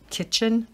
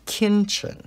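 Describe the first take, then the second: First: The first syllable has no n sound. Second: The first syllable has an added n sound. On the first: The speaker calls it right. "most of us say kitchen" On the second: The speaker calls it wrong. "He puts an extra N in there and it's kinchin"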